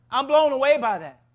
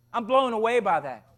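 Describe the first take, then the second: First: BLOWN AWAY pushed higher and louder; emphatic repeat. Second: Said in the usual way. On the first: Real, not acted. Preacher astonished at those who kept silent, stressing "blown away". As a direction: drive home "blown away" with raised pitch and force.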